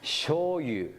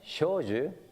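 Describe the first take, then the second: First: The second syllable begins with a Y sound. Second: The second syllable begins with a J sound. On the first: The speaker calls it wrong. "They call me" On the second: The speaker calls it right. "my name"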